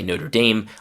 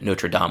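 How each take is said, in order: First: The name is said with English pronunciation. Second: The name is said with French pronunciation. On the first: "or in English pronunciation, people say" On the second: "I prefer the French one"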